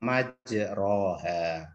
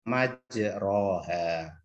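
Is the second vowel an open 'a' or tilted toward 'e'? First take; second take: open a; open a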